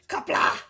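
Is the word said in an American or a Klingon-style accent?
Klingon. It is said in a put-on Klingon accent. The speaker calls it right.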